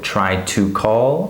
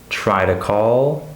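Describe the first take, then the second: First: The word 'to' is said fully and clearly. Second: The word 'to' is short, quiet and reduced. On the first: The speaker calls it wrong. "So I don't say try to do that or try to call" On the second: The speaker calls it right. "I say try to do, try to call"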